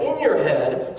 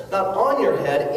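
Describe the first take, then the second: First: The word "in" punched and falling; stress on in. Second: The word "on" leaned on with a laugh, falling; laughing, hit "on" as the mistaken word; stress on on. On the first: Fixing his slip for the audience, "in" stressed hard. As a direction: land firmly on "in" to correct yourself. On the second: Correcting himself to the crowd, "on" stressed with a laugh. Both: Shown as a demonstration.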